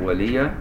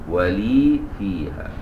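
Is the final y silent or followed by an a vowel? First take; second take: a vowel; silent. First: The y is followed by an a vowel. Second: The y has no vowel after it. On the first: This is how only two reading traditions recite it. "اللي يفتح الياء" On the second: This is how most readers recite it. "بسكون الياء"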